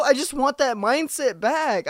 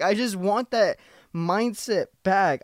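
First: Much higher, pleading insistence. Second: Slow with weight on "that"; slower, stressed repeat. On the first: Telling listeners he misses not caring, high pleading. Repeats longing line. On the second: Repeating to listeners he wants the mindset, slow emphatic. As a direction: lean on "that" and slow down. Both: Real, not acted.

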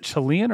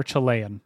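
First: "Chilean" as chih-LEE-un. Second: "Chilean" as chih-LAY-un. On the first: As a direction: say "Chilean" with a stressed "lee" in the middle. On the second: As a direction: say "Chilean" with a stressed "lay" in the middle. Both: Shown as a demonstration. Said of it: "is it Chilean or Chilean?".

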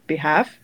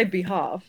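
First: Short "a" as in hat in "behalf"; flat "a" in behalf. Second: Long English "ah" in "behalf"; broad "ah" in behalf. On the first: Showing how other Australians say it, "behalf" as be-HAFF. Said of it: "Australians say the ah sound". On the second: Aussie showing her own way, "behalf" as be-HAHF. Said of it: "So I say behalf". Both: Shown as a demonstration.

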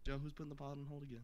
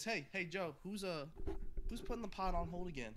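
First: Rapid-fire mocking imitation; fast mocking repeat. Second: Higher, louder mocking impression of a friend; mocking imitation. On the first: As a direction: rattle it off quickly, mocking him. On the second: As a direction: parrot him back mockingly. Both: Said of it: "All I'm hearing is".

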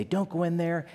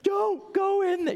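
First: Said in the usual way. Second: Much higher, shrieking warning at the screen; mock movie scream. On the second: Moviegoer shrieking at a horror film character, mock panic. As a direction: yell it like a scared moviegoer.

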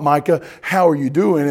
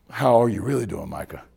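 First: Said in the usual way. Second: Lower, softened check-in, dropping at the name; sincere. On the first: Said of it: "just be fake in our question". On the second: Acted. Pastor really asking Micah how he is, sincere and hushed. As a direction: ask it gently, wanting a real answer. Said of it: "slow down enough to really hear".

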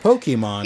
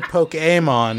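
First: Pokemon said "POH-kee-mon". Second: Pokemon said "POH-kay-mon". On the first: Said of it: "the correct pronunciation if you're going by the Japanese, but". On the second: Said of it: "which is the correct pronunciation if you're going by the Japanese". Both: Shown as a demonstration.

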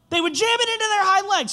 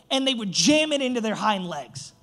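First: High, loud stress all through "jam it into their hind legs"; "jam it into their hind legs" driven home loudly; emphatic repeat. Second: Said in the usual way. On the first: Real, not acted. Repeats line louder for emphasis.

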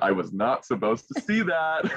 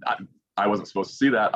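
First: Laughing through the repeat; giggling as he says it. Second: Said in the usual way. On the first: Retold or imitated.

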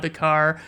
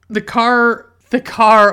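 First: Said in the usual way. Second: The car, blurted louder and higher; excited exclaim. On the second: Real, not acted. Recalling the car in Uncle Buck, loud excited burst. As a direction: burst out the car, thrilled to remember it.

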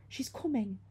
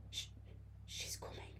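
First: Tight, higher, terrified warning; true terror. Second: Barely managed, very soft whisper; frightened whisper. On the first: Girl convinces her friend it's real, terrified. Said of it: "a tightness that only true terror could cause". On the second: Girl warns her friend of the ghost, whispering. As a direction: whisper it haltingly, no voice at all. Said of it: "I managed to whisper". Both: A narrator's reading.

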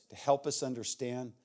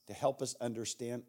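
Both takes have the same delivery.

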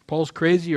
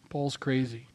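First: Paul's crazy, louder, with crazy punched; emphatic exclaim. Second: Said in the usual way. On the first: Shown as a demonstration. Preacher challenging the congregation, emphatic and louder. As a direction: throw crazy out to the room. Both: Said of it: "Paul's crazy, or".

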